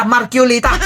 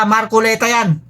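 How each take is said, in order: First: Marculita said with a U sound, mar-ku-LI-ta; mock the guy saying Marculita wrong with a U; mispronounced name. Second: Marculeta said with a clear E, mar-ku-LE-ta; correct pronunciation. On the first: Vlogger mimics a critic mangling the name as Marculita. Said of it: "Boss, hindi yan Marculita ha". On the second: Shown as a demonstration. Vlogger corrects the critic's Marculeta pronunciation. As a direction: set the record straight: Marculeta with an E. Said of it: "Iba yung O, iba yung U".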